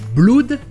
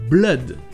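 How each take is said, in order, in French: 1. La voyelle se prononce comme 'oo' dans boot. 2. La voyelle se prononce comme 'uh' dans done. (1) "Ce n'est pas blood" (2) "c'est blood. C'est le son E"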